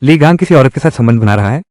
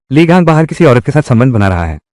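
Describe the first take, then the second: First: Rising tune at the end on "रहा है"; echo question. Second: Falling tune to the end of "संबंध बना रहा है"; plain statement. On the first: Wife questioning news of Li Gang's affair, rising question. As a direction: ask it back, lifting "बना रहा है" into a question. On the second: Telling the wife about Li Gang's affair, falling statement. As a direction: state it as fact, letting "रहा है" fall. Tells her the affair as fact. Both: Acted.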